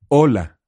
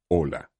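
First: The voice resonates mainly in the mouth. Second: The voice resonates deep in the chest.

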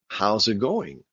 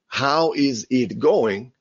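First: The words are linked and reduced together. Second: Each word is said separately and fully.

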